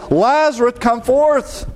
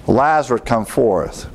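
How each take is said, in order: First: High, projected call, not truly shouted; crying out. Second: Said in the usual way. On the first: A narrator's reading. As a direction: call him out in a high, raised voice. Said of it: "he cried with a loud voice".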